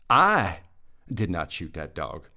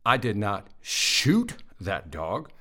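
First: The stress is on the word 'I'. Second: The stress is on the word 'shoot'. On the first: Someone else shot the dog. "I didn't shoot it. Somebody else did" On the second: The speaker did something else to the dog. "I threw a rock at it, but I didn't shoot it"

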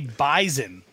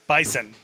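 First: The middle consonant is a buzzed z sound. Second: The middle consonant is a hissed s sound.

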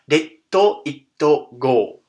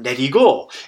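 First: It is said with hard, separated consonants. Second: It is said with soft, blended consonants. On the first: It follows the spelling. "which would be more like Detto Itto Go. That sounds a lot more harsh" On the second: It follows the sound of the song. "That sounds a lot more harsh than neri go"

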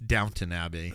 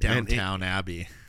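First: The first word is said like Downton. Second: The first word is said like downtown. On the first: The speaker calls it right. "It's Downton Abbey" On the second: The speaker calls it wrong. "You said Downtown Abbey"

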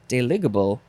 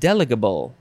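First: The stress is not on the first syllable. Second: The stress is on the first syllable.

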